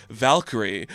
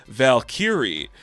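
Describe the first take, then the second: First: Said in the usual way. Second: "Valkyrie" drawn out slowly as two names, Val Kyrie; name split in two. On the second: Acted. Thor musing about a Norwegian supermodel, "Valkyrie" said slowly in two parts. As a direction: stretch "Valkyrie" into a first name and a surname.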